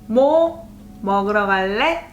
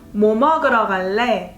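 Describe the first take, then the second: First: The intonation makes it a yes-no question. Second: The intonation makes it a what-question. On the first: Asking whether the listener wants to eat. "Do you want to get something to eat?" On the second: Asking which food the listener wants. "What do you want to eat?"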